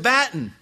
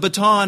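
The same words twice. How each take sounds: First: Baton is said with a British pronunciation. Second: Baton is said with an American pronunciation.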